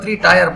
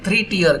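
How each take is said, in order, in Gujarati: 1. 'tier' શબ્દ 'fire' સાથે પ્રાસ કરે છે. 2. 'tier' શબ્દ 'ear' સાથે પ્રાસ કરે છે. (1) "થ્રી ટાયર પણ કહી શકાય" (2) "સાચો ઉચ્ચાર છે થ્રી ટીયર"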